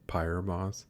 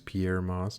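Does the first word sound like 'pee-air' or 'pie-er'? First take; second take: pie-er; pee-air. First: The first word sounds like 'pie-er'. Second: The first word sounds like 'pee-air'. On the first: The speaker calls it wrong. "not Pyre Moss" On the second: The speaker calls it right. "that is how you pronounce it. It is Pierre Moss"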